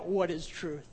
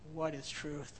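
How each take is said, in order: First: The question is asked in a sarcastic tone. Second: The question is asked in a discouraged tone. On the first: The asker mocks the idea of truth. "Did Pilate say it sarcastically?" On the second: The asker believes truth can never be found. "Did he say it discouraged, like we'll never find out what truth is?"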